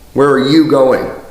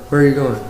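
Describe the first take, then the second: First: The words are projected outward to the listener. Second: The words are held back, not projected outward.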